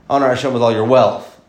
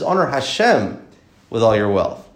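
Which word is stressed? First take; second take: wealth; Hashem. First: The stress is on the word wealth. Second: The stress is on the word Hashem.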